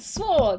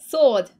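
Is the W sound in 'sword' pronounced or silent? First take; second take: pronounced; silent. First: The W sound is pronounced after the S. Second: The W sound is silent after the S. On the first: The speaker calls it wrong. "I can't say it, it's not my fault!" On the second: The speaker calls it right. "You don't pronounce the W in this"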